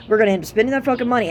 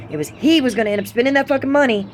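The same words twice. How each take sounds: First: Said in the usual way. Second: He punched as the one to blame; stress on he. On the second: Shown as a demonstration. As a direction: lean hard on the word he, not we. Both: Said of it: "And it's not we".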